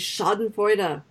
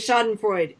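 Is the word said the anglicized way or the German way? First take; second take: German; anglicized. First: The word is said in a German way. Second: The word is said in an anglicized way. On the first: The speaker calls it right. "It's Schadenfreude" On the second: The speaker calls it wrong. "never, ever, ever say Schadenfreude"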